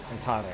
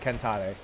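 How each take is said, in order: Both takes have the same delivery.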